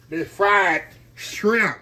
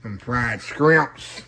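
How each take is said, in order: First: Slow "shrimp" said with shr, not sk; proper shrimp. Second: "scrimps" with a k sound, slow and drawn; scrimps pronunciation. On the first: Cook corrects the joke word to viewers, slow "shrimp". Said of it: "not fried scrimps". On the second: Cook shows viewers the other way to say it, slow "scrimps". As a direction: say "scrimps" with sk at the start, slowly. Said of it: "Some people say scrimps". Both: Shown as a demonstration.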